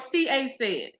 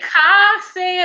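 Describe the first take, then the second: First: The start is spelled out as letters, 'C A'. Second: The start is said as one syllable, 'ka'. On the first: The speaker calls it right. "My initials" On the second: The speaker calls it wrong.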